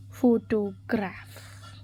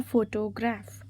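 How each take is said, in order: First: "Photograph" slowly, in separated syllables; stressed-word demo. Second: Said in the usual way. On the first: Shown as a demonstration. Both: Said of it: "Select the correctly spelled or stressed word".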